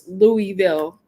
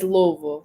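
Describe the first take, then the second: First: Every part of the name is fully sounded out. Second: The name is said in a reduced, clipped form. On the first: The speaker calls it wrong. "before I used to say like how it looks" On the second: The speaker calls it right. "but it's not. It's Louisville"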